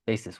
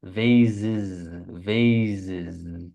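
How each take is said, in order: First: "vases" with a hissed s, VAY-sis; slow "vases" with a clear s in the middle; "vases" said wrongly with an s; wrong s take. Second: "vases" with a buzzing z, VAY-zis; "vases" voiced, zzz in the middle; "vases" said correctly with a z; right z take. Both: Shown as a demonstration. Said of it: "when this is vases".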